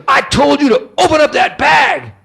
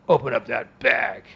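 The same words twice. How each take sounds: First: High, loud imitation of an irate customs man; hammed-up furious order, pitch way up; angry official's shout. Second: Slow, low, gruff order from a burly official; grumpy official, drawn out and softer; grouchy customs officer. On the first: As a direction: bellow it like a mean officer losing patience. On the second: Retold or imitated. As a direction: play a mean big man giving a quiet order. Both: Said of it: "he was a grouchy big man".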